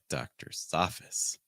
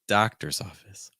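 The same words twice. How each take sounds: First: The stress falls on the word office. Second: The stress falls on the word doctor's. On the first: The speaker calls it wrong. "they want to stress the word office" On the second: The speaker calls it right. "instead we want to stress doctor's"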